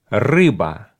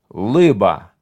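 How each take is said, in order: First: The word begins with a rolled R sound. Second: The word begins with an L sound. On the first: The speaker calls it right. "Скажи, рыба" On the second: The speaker calls it wrong. "не умел говорить букву «Р»"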